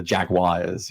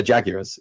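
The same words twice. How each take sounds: First: Jaguars as JAG-wires, a w after the g; American-style Jaguars. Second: Jaguars as JAG-yoo-ars, a y after the g and no r; British Jaguars. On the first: British fan trying the American Jaguars, JAG-wires. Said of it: "what's the American pronunciation of Jaguars". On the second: Londoner defending his own Jaguars, JAG-yoo-ars. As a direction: Jaguars the way he's always said it. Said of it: "a few comments about my accent". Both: Shown as a demonstration.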